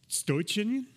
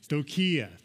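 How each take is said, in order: First: The word ends with an 'n' sound. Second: The word ends with an 'ah' sound. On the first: The speaker calls it wrong. "That's more like Slavic. I don't know what I said there" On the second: The speaker calls it right. "There we go"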